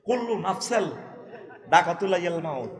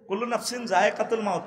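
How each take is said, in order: First: The second word ends in 'al', softened consonants. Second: The second word ends in 'in', full consonants. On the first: The speaker calls it wrong. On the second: The speaker calls it right.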